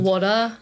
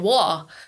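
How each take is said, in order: First: The middle consonant sounds like a D. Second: The middle consonant is dropped entirely. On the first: "in an American pronunciation, would you use like a D" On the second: "some people don't say the T or the D at all"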